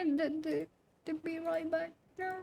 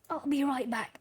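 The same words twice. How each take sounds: First: Soft, high, fake-tearful voice; mock crying. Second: Said in the usual way. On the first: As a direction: pretend to weep as you say goodbye. Mock sad goodbye to chat.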